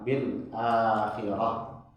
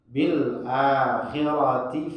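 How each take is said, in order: First: The word ends with an h sound. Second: The word ends with a ti sound. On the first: The recitation stops at this word. "kalau kita wakaf di situ jadi ha besar" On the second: The recitation continues into the next words. "Kalau dilanjutkan"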